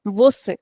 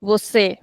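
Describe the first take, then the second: First: Você with a clipped, closed final ê; closed short ending. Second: Você with its ê stretched and open; wrong open ending. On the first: Teacher repeats the correct word, short closed ê in você. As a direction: keep the mouth fairly closed on the end of você. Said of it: "that is cut short". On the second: Teacher repeats what we don't say, você with open long ending. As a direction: open up and extend the end of você. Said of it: "So we don't say". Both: Shown as a demonstration.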